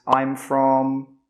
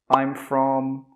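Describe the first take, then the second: The two takes are said the same way.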